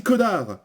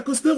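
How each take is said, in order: First: Connard with a silent S, ko-nar; connard, the S dropped; right pronunciation. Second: Cosnard with the S sounded, kos-nar; Cosnard, S pronounced, raised pitch; wrong pronunciation. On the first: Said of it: "on dit connard". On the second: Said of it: "On dit pas Cosnard". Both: Shown as a demonstration.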